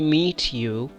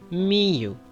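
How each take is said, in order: First: The T sound at the end of meet is pronounced. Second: The T sound at the end of meet is dropped. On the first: The speaker calls it wrong. "Do not say meet you" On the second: The speaker calls it right. "You should say me you. / We skip T sound"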